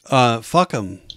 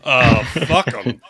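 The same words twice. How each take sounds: First: It is said in the speaker's normal voice. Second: It is said in a put-on god voice.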